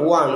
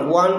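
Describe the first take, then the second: No difference in how they are said.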